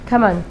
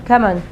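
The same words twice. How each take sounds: First: The words are run together as one short word. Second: The same.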